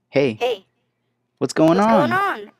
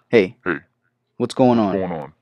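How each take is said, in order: First: The voice is altered to sound like a child. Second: The voice is altered to sound like a man. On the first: "I sounded just like a child" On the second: "Male voices"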